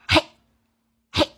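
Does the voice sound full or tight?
tight. The voice is tight and stuck in the throat. The speaker calls it wrong. "你的声音就会卡在这里，搭不上下面的气息"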